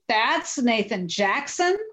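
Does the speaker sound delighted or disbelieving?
disbelieving. It sounds shocked and questioning, in disbelief. The person is not what was expected. "I was shocked"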